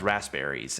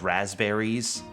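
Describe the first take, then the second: First: The middle is said with s and p. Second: The middle is said with a z sound. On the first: The speaker calls it right. "spelled with an S P" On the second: The speaker calls it wrong. "I always thought it was two Z's because of some the way that I pronounced it"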